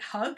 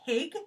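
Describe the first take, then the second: First: The first vowel sounds like the one in hug. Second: The first vowel sounds like the one in pig. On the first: "like hug" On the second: "like pig"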